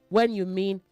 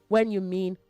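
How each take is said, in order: No difference in how they are said.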